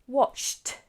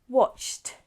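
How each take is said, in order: First: The ending is a single t sound. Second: The same.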